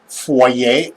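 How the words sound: The word is said with a French pronunciation. "I get that it's supposed to be foyer. Are you impressed with my French accent?"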